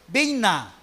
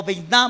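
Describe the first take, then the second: First: "bina" with the stress on the BI; stress on first syllable. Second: "biná" with the accent on the final A; stress on last syllable. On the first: Teacher giving the Hebrew word for understanding, "bina" stressed BI-na. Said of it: "o biná más bien". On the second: Teacher correcting the Hebrew word, "biná" stressed bi-NÁ. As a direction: say "biná", landing on NÁ. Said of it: "porque lleva acento en la A". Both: Shown as a demonstration.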